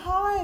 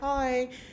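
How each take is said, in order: First: The greeting is lively and high in energy. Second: The greeting is flat and low in energy. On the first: The speaker is glad to see the other person. "I'm like, oh my God, Krishana" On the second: The other person seems uninterested. "doesn't sound as trippy"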